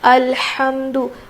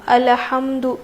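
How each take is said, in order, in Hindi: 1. l के बाद कोई स्वर नहीं है। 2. l के बाद एक छोटा स्वर आता है। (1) "लाम के ऊपर ज़बर नहीं है बल्कि जज़म है" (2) "लाम ज़बर होता है अल ... बेख्याली में पढ़ लेते हैं, जल्दी जल्दी में"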